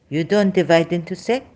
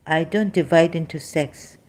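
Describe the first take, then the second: First: "You don't divide into sect?" with a rising questioning end; echoed claim, lifted at "sect". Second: Said in the usual way. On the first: Real, not acted. Throws the claim back as question.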